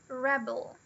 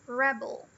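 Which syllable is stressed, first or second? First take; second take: first; first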